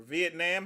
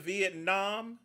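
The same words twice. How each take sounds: First: "Vietnam" ending in "nam", as in ham; alternate pronunciation. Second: "Vietnam" ending in an open "nahm"; alternate pronunciation. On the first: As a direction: say "Vietnam" with a short "a" at the end. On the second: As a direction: say "Vietnam" with an "ah" in the last syllable. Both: Shown as a demonstration. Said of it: "however you pronounce it".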